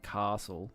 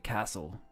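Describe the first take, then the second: First: It is said the New South Wales way, like British. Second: It is said the Victorian way.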